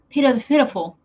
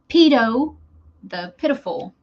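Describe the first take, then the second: First: The phrase is said quickly, run together. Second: The phrase is said slowly, with a pause. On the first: "I was saying it fast" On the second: "Say it a little more clear"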